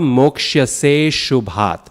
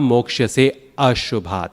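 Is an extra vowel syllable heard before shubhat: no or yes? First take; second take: no; yes. First: No extra vowel is heard before shubhat. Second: An extra a vowel is heard before shubhat. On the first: The speaker calls it right. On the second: The speaker calls it wrong.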